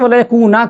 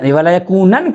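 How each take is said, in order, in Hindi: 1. आखिरी शब्द लंबे 'a' पर खत्म होता है। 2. आखिरी शब्द 'n' की आवाज़ पर खत्म होता है।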